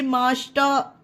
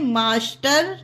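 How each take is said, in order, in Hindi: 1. अंतिम र मूक है, 'ah' पर खत्म होता है। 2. अंतिम र की ध्वनि साफ़ उच्चारित होती है। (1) "आर को आ का उच्चारण देंगे और इसे पढ़ेंगे मास्टर, मतलब हल्का सा।" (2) "इसे मास्टर नहीं पढ़ा जाता है फ्रेंड।"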